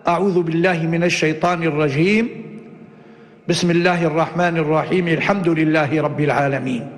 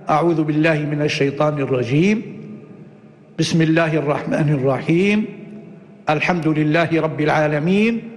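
First: A pause comes only after the first phrase. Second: Pauses come after both the first and second phrases. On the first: "قطع الأول ووصل الثاني بالثالث" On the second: "هذا قطع الجميع"

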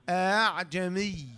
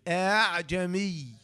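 First: The second hamza is softened toward a long a. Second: The second hamza is softened toward a long a.

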